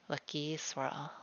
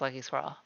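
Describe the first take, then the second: First: The name is said slowly and clearly. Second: The name is said quickly and slurred. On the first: The name is heard correctly. The speaker calls it right. "really good at saying swirl so people would hear it correctly" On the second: The name is misheard as a squirrel. The speaker calls it wrong. "if you say it too fast"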